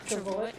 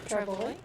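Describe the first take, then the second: No difference in how they are said.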